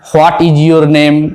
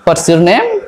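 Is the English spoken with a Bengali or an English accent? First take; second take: Bengali; English. First: It is spoken with a Bengali-style accent. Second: It is spoken with an English-style accent. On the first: The speaker calls it wrong. "বাঙালির মতো করে English বলি" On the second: The speaker calls it right. "ইংলিশটাকে ইংলিশের মতো করে বলতে হবে"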